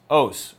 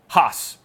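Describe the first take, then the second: First: The word is said in a non-Erasmian pronunciation. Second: The word is said in the Erasmian pronunciation.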